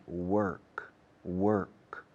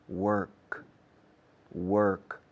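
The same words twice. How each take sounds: No difference in how they are said.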